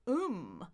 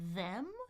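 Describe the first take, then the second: First: The th is dropped, leaving only 'um'. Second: It has a full 'eh' vowel and th. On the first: "Or I can just say uh, uh, um" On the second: "I can say eh, eh, them"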